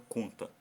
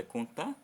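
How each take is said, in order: First: CONTA with CON strong and TA falling away; stress on first syllable. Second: CONTAR as a question, weight on the final TAR; stress on last syllable. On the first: Teacher offering the right option, CONTA stressed on CON. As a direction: hit CON in CONTA, let TA drop. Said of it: "Se você lê o com com mais força". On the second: Teacher asking pupils which is right, CONTAR stressed on TAR. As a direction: lean on TAR in CONTAR, rising. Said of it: "ler o tá com mais força". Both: Shown as a demonstration.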